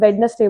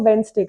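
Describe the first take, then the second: First: The middle 'nes' syllable is pronounced. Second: The middle 'nes' syllable is dropped. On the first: The speaker calls it wrong. "जिस तरह आज तक हम वेडनेसडे बोलते हैं" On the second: The speaker calls it right. "उसको वेंसडे"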